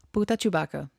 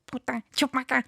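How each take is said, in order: First: A light take on Stitch's alien words; mild Stitch impression; Stitch alien phrase. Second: Giggly mock alien gibberish; high, laughing Stitch impression; Stitch alien phrase. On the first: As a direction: say it as Stitch would, lightly voiced. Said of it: "what it sounds like". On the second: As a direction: imitate Stitch's garbled alien speech through a laugh. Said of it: "I'm gonna try".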